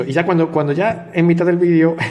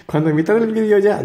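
First: Said in the usual way. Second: Higher, chuckling through the words; can't help laughing while retelling. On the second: Real, not acted. Vlogger retelling silly example solves, laughing as he speaks.

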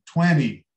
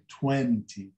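First: "twenty" with the second t dropped, TWEN-ee; American twenty. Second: "Twenty" with the second t sounded, TWEN-tee; careful twenty. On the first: Teacher showing very American speech, "twenty" as TWEN-ee. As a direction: let the nt of "twenty" become just n. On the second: Teacher giving the careful form, "Twenty" with a clear t. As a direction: articulate both t's in "Twenty". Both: Shown as a demonstration. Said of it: "os bem americanos dizem twenty".

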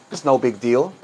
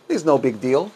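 The two takes are said the same way.

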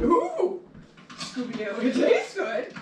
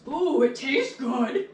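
First: Higher, louder goofy cartoon dog; Scooby-Doo voice. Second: Slow, drawn-out cartoon character voice. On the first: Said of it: "I just sound like a cartoon character". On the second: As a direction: say it like a goofy cartoon. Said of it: "I just sound like a cartoon character when I say that".

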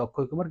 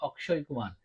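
First: অক্ষয় said as okkhoy, with a kh sound; অক্ষয় Kumar as okkhoy kumar, kh for ক্ষ; Bengali pronunciation. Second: অক্ষয় said as akshay, with a k-sh cluster; অক্ষয় Kumar as akshay kumar, ksh for ক্ষ; Indian Hindi pronunciation. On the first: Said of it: "আমরা বাংলায় বলি". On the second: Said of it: "কিন্তু ওরা বলে". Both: Shown as a demonstration.

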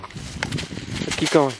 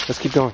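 First: Whisper. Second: Said in the usual way. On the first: Real, not acted. Urging the dog on the trail.

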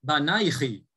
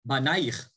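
First: Banaichi with a final chi, ending in -ichi; Northern Hebrew form. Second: Banaich ending on a bare -aich, no final vowel; Southern Hebrew form. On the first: Teacher shows the Northern form: banaichi ending in -ichi. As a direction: say banaichi, closing on an added -chi. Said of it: "Elisha says banaichi because he's speaking in a northern". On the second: Teacher shows the textbook form: Banaich ending on -aich. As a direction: cut Banaich off at the ch. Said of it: "we would say banaich". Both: Shown as a demonstration.

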